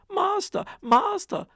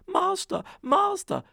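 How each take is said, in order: First: Very high, loud alarm cry; the harp raises the alarm again. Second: Very high, loud alarm cry; shrill warning to wake the master; harp calling. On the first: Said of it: "the harp cried out". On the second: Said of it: "the harp called out". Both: Acted.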